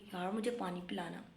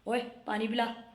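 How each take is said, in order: First: It is said in a sweet, loving tone. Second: It is said in a rude, angry tone.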